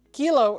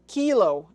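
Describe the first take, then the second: First: "kilo" said KEE-lo, first syllable punched; long ee sound. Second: "kilo" said KILL-o; short i sound. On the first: Teaching the standard phonetic word, "kilo" as KEE-lo. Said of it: "Kilo is pronounced kilo". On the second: Showing hams the mistake to avoid, "kilo" as KILL-o. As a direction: clip the first vowel of "kilo" to a short i, as in kill. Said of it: "and not kilo". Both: Shown as a demonstration.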